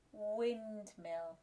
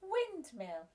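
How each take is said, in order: First: Said in the usual way. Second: Excited modelled word. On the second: Shown as a demonstration.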